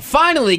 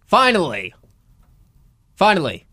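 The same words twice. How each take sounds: First: Finally sung high then falling; emphatic high finally. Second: Said in the usual way. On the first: Shown as a demonstration. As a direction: hit Finally high and loud. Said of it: "repeating finally for effect". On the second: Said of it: "repeating finally".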